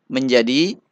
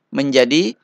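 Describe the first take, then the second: Both takes have the same delivery.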